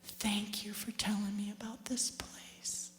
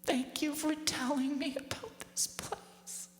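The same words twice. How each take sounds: First: Softer, slow whispered thanks; grateful whisper. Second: Higher, slow, tender thanks. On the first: Mother thanking her daughter in heaven, grateful whisper. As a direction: whisper your thanks tenderly. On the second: Mother thanking her daughter in heaven, tender. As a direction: thank her softly, deeply moved. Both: Retold or imitated. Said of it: "she puts her hand on my knee and she said".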